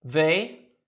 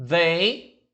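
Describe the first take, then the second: Both takes have the same delivery.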